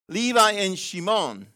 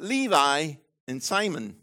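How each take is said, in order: First: Shimon said as shee-MOHN, with a SH; Levi and Shimon, with Shimon said shee-MOHN; Hebrew name Shimon. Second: Simon said the English way, with a plain S: SY-mun; Levi and Simon, with Simon as English SY-mun. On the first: Pastor corrects himself to Hebrew shee-MOHN. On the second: Pastor naming the brothers, Simon in English SY-mun. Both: Shown as a demonstration.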